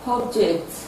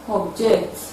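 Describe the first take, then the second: First: The stress is on the first syllable. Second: The stress is on the second syllable. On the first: It is used as a noun. "the noun will have its stress on the first syllable" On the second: It is used as a verb. "the verb will have its stress on the second syllable"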